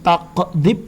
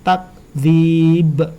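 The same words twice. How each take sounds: First: The k sound is given a bounce. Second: The k sound is said flat without bounce. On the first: The speaker calls it wrong. "Ini bukan takdzib ya, karena huruf kaf bukan termasuk huruf qalqalah" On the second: The speaker calls it right. "Jadi takdzib"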